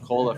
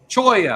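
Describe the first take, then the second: First: The middle consonant is an L sound. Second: The middle consonant is a Y sound. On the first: The speaker calls it wrong. "I called it cola forever" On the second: The speaker calls it right. "that's how you say it"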